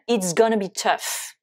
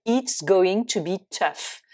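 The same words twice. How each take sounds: First: "gonna" run into one reduced word; spoken contraction "gonna"; contracted gonna. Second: Said in the usual way. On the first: Shown as a demonstration. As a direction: turn "going to" into a short "gonna". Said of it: "Dernière phrase avec gonna". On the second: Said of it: "Contraction de".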